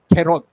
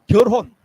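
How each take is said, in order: First: The first syllable is flattened to 'gae'. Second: The first syllable is a clear 'gyeol'. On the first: The speaker calls it wrong. "경상도 사람들은 거의 결혼이라고 안 하고 개론 이렇게 이야기합니다" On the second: The speaker calls it right. "제가 그래도 결, 결혼 발음 잘하죠?"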